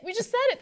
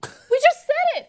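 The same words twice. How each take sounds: First: Said in the usual way. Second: Emphatic. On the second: Real, not acted. Repeats for emphasis.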